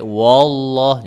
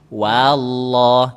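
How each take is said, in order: First: The w is heavy and thick. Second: The w is light, clear and separate. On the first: The speaker calls it wrong. "jangan sampai wallah, jangan sampai seperti itu" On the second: The speaker calls it right. "wanya itu benar-benar jelas, pisah dia"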